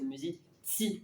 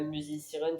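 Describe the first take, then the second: First: The z is sounded as ts. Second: The z is sounded as a plain z. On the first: The speaker calls it right. "on appuie sur le ti comme si c'était T S I" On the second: The speaker calls it wrong. "c'est pas musizieren"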